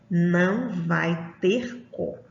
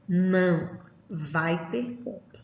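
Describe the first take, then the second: First: It is said without a pause after não. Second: There is a pause after não.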